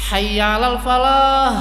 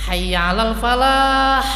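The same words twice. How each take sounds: First: The final h is a plain light breath. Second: The final h is a harsh throat sound. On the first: Come to the open field. The speaker calls it wrong. "Kadang malah yang falah ini hanya hak gede" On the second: Come to success. The speaker calls it right. "Kalau falah haknya yang hak pedas, dua-duanya pedas"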